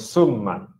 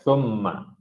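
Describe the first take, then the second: First: The word begins with a hissing 's' sound. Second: The word begins with a soft 'th' sound. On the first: The speaker calls it wrong. "bukan summa" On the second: The speaker calls it right. "bila sebut thumma"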